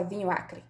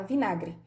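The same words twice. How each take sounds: First: "vinho acre" with "vinho" and "acre" kept apart; "vinho acre" with no merging; two separate words. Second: "vinagre" said as /binagri/, all one word; "vinagre" run together as one word; fused into one word. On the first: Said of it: "A gente não fala vinho acre". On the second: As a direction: merge it into "vinagre". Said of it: "a gente fala vinagre". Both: Shown as a demonstration.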